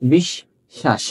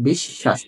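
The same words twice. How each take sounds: First: Slow demo of বিশ্বাস with a doubled শ. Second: Said in the usual way. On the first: Shown as a demonstration. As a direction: stretch বিশ্বাস, holding the শ twice as long. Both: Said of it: "সব কিন্তু তলা বসা".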